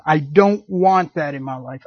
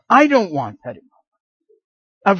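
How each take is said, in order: First: Said in the usual way. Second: Higher, louder and slow, pleading insistence; emphatic insistence. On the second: Shown as a demonstration. A believer insisting on a comfortable life, higher and louder, slow. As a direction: lean into every word of "I don't want that in my life".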